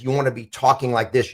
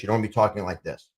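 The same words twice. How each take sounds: First: Standing tall, face up, steady voice; upright, confident phone voice; powerful posture. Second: Hunched over, quicker and softer; deflated, slouched phone voice; slumped posture. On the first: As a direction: talk like you own the call. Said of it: "you're more powerful like this". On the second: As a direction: mumble it like you're shrinking. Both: Shown as a demonstration.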